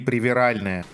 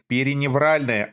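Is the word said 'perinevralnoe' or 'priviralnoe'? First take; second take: priviralnoe; perinevralnoe. First: It is said 'priviralnoe' without a 'nev' sound. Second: It is said 'perinevralnoe' with a 'nev' sound. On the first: The speaker calls it wrong. "а не привиральное" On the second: The speaker calls it right. "Правильно говорить периневральное"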